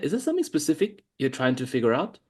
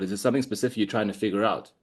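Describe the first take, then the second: First: The question sounds warm and genuinely curious. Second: The question sounds flat and uninterested. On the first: The asker truly wants to know the answer. The speaker calls it right. "Notice how I'm saying it. Can you hear in my tonality?" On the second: The asker does not really care about the answer. The speaker calls it wrong. "It doesn't showcase that I'm curious"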